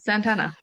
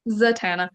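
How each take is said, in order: First: An n sound comes before the t. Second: No n sound comes before the t. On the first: The speaker calls it wrong. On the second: The speaker calls it right.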